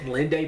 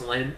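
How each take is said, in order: First: The name ends with an extra vowel sound. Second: The name ends without any final vowel sound. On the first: The speaker calls it wrong. "I always said Linde" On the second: The speaker calls it right. "I think it's pronounced Lynn. I don't think you pronounce the E"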